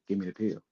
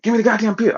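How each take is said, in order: First: Soft, low ask for the pill; quiet first request; calm request. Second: High, loud frantic demand; high frantic shout for the pill; losing it. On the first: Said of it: "I said". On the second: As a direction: yell for the pill like you've lost your mind. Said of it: "I lost my mind that day". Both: Retold or imitated.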